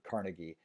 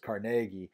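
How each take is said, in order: First: It uses the commonly heard later pronunciation of the name. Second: It uses the original Scottish pronunciation of the name. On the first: This is how people usually say it today. "When I grew up, I always heard it Carnegie" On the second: This is how the family name was first said. "was originally pronounced was Carnegie"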